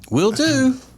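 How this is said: It is said in a willing, agreeable tone. The speaker is happy to do the task. "Like, gotcha. I'll be glad to do that"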